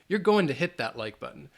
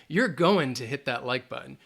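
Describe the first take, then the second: First: Going to is said as two words, final g dropped. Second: Going to is said as two words, final g dropped.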